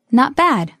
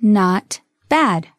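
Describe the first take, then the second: First: Said in the usual way. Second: Slow, separated words; slow model. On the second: Shown as a demonstration. Teacher modelling a phrase for learners, slowly. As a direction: set the two words apart.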